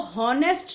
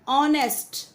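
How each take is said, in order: First: The word begins with an h sound. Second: The word begins directly with a vowel sound. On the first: The speaker calls it wrong. "इसको हॉनेस्ट नहीं बोलना है" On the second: The speaker calls it right. "एच silent होता है इसमें। This is called ऑनेस्ट"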